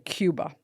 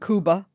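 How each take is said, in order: First: Cuba is pronounced the English way, like Kyoo-ba. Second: Cuba is pronounced the Spanish way, like Koo-ba. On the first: This is how most people say it. "Why do people say Cuba?" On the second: This is the correct pronunciation. "that's also the correct way to say it"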